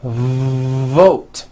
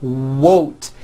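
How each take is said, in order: First: VOTE with a long, buzzed V; long buzzing V. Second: VOTE mispronounced as WOTE, with a rounded W. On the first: Teacher correcting wote, long voiced V in VOTE. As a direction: lean on the voiced V, then VOTE. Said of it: "The word is not wote". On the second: Teacher imitating the error, W in place of V in WOTE. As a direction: swap the V for a W: WOTE. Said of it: "replacing your V sounds for W sounds". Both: Shown as a demonstration.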